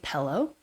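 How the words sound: It has a lax Utah-style vowel. "they'll say pillow"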